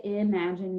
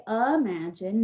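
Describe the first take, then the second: First: IMAGINE starting with a clear "ih", as ih-MAJ-in; short-i first vowel. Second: IMAGINE starting with "uh", as uh-MAJ-in; alternative first vowel. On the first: Teacher explaining spelling markings, clear "ih" at the start of IMAGINE. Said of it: "you don't need anything for that first syllable". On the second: Teacher showing the class another pronunciation, "uh" at the start of IMAGINE. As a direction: say IMAGINE with a stressed "uh" up front. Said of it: "if you say imagine". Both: Shown as a demonstration.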